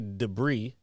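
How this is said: It is said with an American pronunciation. "we say like we say debris"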